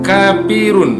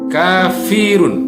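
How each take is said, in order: First: The middle consonant is a p sound. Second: The middle consonant is an f sound. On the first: The speaker calls it wrong. "jadi bukan kapirun" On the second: The speaker calls it right. "Jadi kafirun ya"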